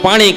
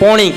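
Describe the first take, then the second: First: The first vowel is an open 'aa' sound. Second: The first vowel is a rounded 'o' sound. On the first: This is the ordinary way of saying it. "આપણે સુરતી ભાષામાં પાણી કહીએ" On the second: This is how people from Surat say it. "સુરતી લોકો એને પોણી કહે"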